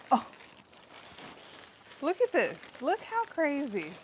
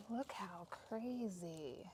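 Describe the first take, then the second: First: Loud, high burst of amazement; excited amazement. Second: Soft, drawn-out marvelling; hushed amazement. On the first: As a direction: show it off, thrilled. Showing off huge greens harvest. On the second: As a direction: marvel quietly, slowly to yourself. Quietly marvelling at harvest. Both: Real, not acted.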